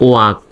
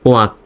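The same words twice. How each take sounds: No difference in how they are said.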